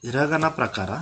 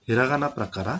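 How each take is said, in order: No difference in how they are said.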